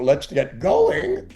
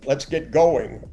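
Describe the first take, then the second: First: The voice rises at the end. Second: The voice falls at the end.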